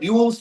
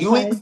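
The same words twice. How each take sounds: First: The middle vowels have no 'oo-ee' sound. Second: The middle vowels sound like a distinct 'oo-ee'. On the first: The speaker calls it right. "ruins बोलिए" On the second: The speaker calls it wrong. "ruins नहीं ना भाई"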